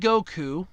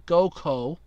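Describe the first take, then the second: First: The name ends with an 'oo' vowel. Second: The name ends with an 'oh' vowel. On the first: The speaker calls it wrong. "I guess I should have said it that way" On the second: The speaker calls it right. "so Goko"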